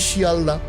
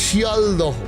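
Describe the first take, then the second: First: The name ends in a plain open vowel. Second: The name ends with an audible h syllable. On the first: This is how people actually say it. "আমরা বলি শিয়ালদা" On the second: This is how it is written on signs. "হোর্ডিংয়ে বড় বড় করে লেখা আছে"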